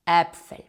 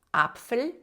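First: Äpfel starting with an open "eh"; Äpfel with umlauted first vowel. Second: Apfel starting with an open "ah"; singular plain A. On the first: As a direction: hit an open e in Äpfel, louder. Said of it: "це відкритий звук Е". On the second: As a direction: open wide on the A of Apfel, pitched higher. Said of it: "коли однина А переходить в множину". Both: Shown as a demonstration.

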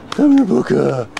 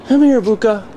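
First: Said in the usual way. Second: Higher, louder call; calling the dog. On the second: Real, not acted. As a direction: call the dog across the room.

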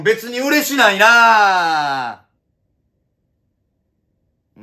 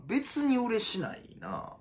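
First: Very slow, loud, higher drawn-out yell; drawn-out shout. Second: Higher but softer, slowed mutter; softer repeat. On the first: Comedian hamming up his denial as a long yell. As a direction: stretch it out like the catchphrase. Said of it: "repeated plainly after". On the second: Comedian repeating his denial, quietly to himself. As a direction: say it again under your breath. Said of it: "said again softer". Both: Acted.

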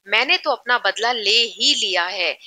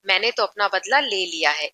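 First: ही stressed, said firmly and with weight; firm emphasis. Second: Said in the usual way. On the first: Shown as a demonstration. Teacher showing students an emphatic sentence, ही stressed. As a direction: lean hard on ही to make the revenge certain. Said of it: "बहुत strongly बोल रहा है". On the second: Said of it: "इतना ज्यादा जोर देके नहीं बोल रहा है".

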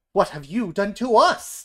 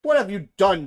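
First: Loud, high demand with rising end. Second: Loud, high demand. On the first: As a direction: shout it right back. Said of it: "demand the other animals". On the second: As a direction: shout the accusation. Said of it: "demand the warthogs". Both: A narrator's reading.

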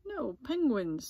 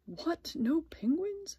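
First: "No penguins" as a falling statement; firm confirmation. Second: High, incredulous storybook question; shocked question. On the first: Miss Wimpy Dimple answers Splat with "No penguins", falling confirmation. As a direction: start high on "No", let "penguins" fall with finality. Teacher confirms the bad news. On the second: Splat learns there are no penguins, incredulous question. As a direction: ask it in disbelief, pitch jumping up. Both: A narrator's reading.

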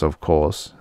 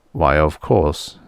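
First: Said in the usual way. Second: Slow, calm and pleased; calm and happy. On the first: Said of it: "the ship said calmly". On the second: A narrator's reading. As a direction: say it easily, as if nothing is wrong. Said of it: "the ship said calmly, happily".

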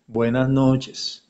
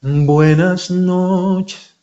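First: Off-pitch on purpose. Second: Slow, higher sung line; in-tune sung demo. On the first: Teacher showing a singer who can't find the pitch, off-key. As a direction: sing it flat, missing the note. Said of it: "no, estoy desubicado". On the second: Teacher showing the correct pitch placement, sung. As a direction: sing it right on pitch. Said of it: "vas a encontrar la ubicación". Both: Shown as a demonstration.

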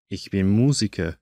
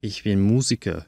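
Both takes have the same delivery.

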